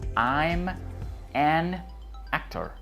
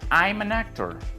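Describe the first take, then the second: First: Each word is said slowly and separately. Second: The words are linked into one smooth flow. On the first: The speaker calls it wrong. "nadie pronuncia su idioma así de lento" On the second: The speaker calls it right. "vas a conectar la M de I'm con la A del artículo y la N del an con la A de actor"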